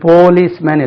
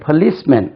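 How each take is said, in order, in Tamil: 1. P காற்று வெளியேறாமல் சொல்லப்படுகிறது. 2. P காற்று வெளியேறும்படி சொல்லப்படுகிறது. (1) "இது policeman இல்ல" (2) "அது ஒரு சின்ன H சேர்த்துக்கணும்"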